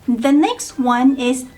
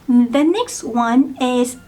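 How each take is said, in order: The two takes are said the same way.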